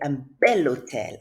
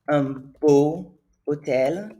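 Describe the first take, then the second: First: The adjective ends in an L before hotel. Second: The adjective ends in a vowel before hotel. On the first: The speaker calls it right. "we're going to say un bel hotel" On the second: The speaker calls it wrong. "It doesn't flow"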